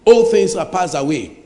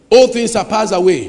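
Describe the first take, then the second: First: Said in the usual way. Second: Second "All things are passed away" louder, "all" hit hard; emphatic repeat. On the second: Shown as a demonstration. Preacher driving home the verse, louder emphatic repeat. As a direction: repeat it with more force on "all".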